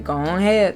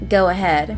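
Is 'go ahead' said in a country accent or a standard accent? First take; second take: country; standard. First: It is said in a rural country accent. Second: It is said in a plain, standard accent. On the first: "us country folk, We say go ahead" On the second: "we don't say go ahead"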